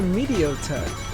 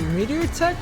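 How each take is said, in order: First: The first word ends with an O sound. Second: The first word ends with an R sound. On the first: This is how the characters say the name. "all the characters pronounce it Meteotech" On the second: This is how the logos write the name. "Meteor Tech with an R at the end"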